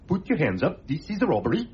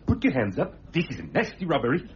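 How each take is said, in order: First: It is said in a mild, unthreatening way. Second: It is said in a menacing, threatening way.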